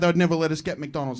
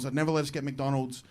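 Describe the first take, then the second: First: Said in the usual way. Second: Soft, lower echo of the line before; softer repeat. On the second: Retold or imitated. Repeating the parents' rule.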